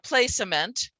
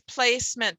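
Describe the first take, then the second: First: The middle E is pronounced as a sound. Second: The middle E is silent, not pronounced. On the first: The speaker calls it wrong. "It's not placement" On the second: The speaker calls it right. "It's placement because I was aware of that suffix"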